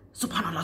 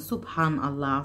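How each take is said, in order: First: It is said very fast, rattled off. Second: It is said at a calm, slow pace.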